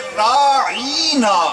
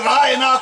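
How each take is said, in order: First: The word is said in an altered, distorted form. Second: The word is said in its ordinary form.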